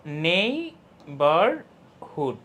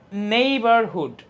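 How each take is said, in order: First: Very slow neighbourhood in three separate beats; split into syllables. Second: Said in the usual way. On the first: Shown as a demonstration. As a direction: break neighbourhood into নেই, বার, হুড with pauses. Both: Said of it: "এখানে কয়টা part বলো তো".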